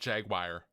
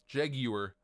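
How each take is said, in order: First: The word has a common American pronunciation. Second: The word has an English British pronunciation. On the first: "Lots of people pronounce it Jaguar" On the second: "I actually prefer the English pronunciation of Jaguar"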